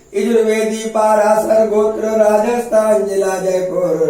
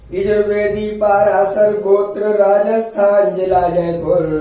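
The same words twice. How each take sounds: Both takes have the same delivery.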